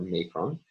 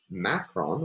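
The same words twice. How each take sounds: First: "macron" said MAY-kron; first syllable of "macron" rhymes with day; long-a pronunciation. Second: "macron" said MACK-ron; first syllable of "macron" rhymes with back; short-a pronunciation. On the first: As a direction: say "macron" with the a of "make". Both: Shown as a demonstration. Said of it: "called a macron or macron".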